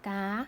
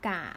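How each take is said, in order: First: The syllable is said with a high tone. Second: The syllable is said with a low tone.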